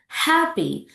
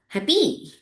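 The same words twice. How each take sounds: First: The stress is on the first syllable. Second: The stress is on the second syllable. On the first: The speaker calls it right. "Put the stress on the first syllables" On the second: The speaker calls it wrong.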